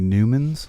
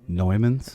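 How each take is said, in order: First: The name begins with a 'new' sound. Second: The name begins with a 'noy' sound. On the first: The speaker calls it wrong. "don't even know how to pronounce" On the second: The speaker calls it right. "you mean Neumanns?"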